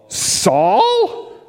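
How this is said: It is said in a weird, odd voice.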